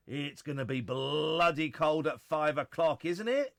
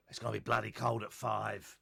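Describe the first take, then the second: First: Louder and slower for emphasis; emphatic. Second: Said in the usual way. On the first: Real, not acted. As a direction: lean on bloody cold. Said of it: "repeated louder, slower". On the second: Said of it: "repeated with more weight".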